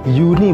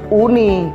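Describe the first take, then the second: First: The word begins with a y sound. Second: The word begins with a plain vowel sound. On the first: The speaker calls it right. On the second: The speaker calls it wrong. "bukan bukan uni"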